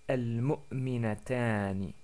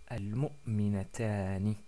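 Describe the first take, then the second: The two takes are said the same way.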